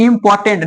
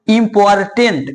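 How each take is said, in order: First: The R sound is silent before the t. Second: The R sound is pronounced before the t. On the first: The speaker calls it right. "इसका pronunciation इंपॉर्टेंट" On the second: The speaker calls it wrong. "Not इम्पोर्टेंट"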